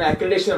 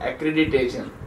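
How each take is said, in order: First: The word is said with four syllables. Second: The word is said with five syllables. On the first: The speaker calls it wrong. "बरेच जण ऍक्रिडेशन म्हणतात" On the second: The speaker calls it right. "त्याचा मूळ उच्चार आहे ऍक्रिडिटेशन"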